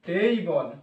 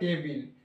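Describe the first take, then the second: First: The first vowel is an 'ay' glide. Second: The first vowel is a short 'e'. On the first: The speaker calls it right. "Actually উচ্চারণ হয় এখানে টেইবল" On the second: The speaker calls it wrong. "কে কো লিয়া টেবিল"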